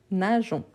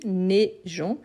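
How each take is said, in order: First: "nageons" with an open a first: na-zhon; na, not né. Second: "neigeons" with an è/é vowel first: né-zhon. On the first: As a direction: say "nageons" starting on na. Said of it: "pas né". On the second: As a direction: say "neigeons" starting on né, not na. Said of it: "c'est avec E I". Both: Shown as a demonstration.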